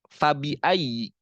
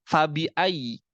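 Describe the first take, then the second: The two takes are said the same way.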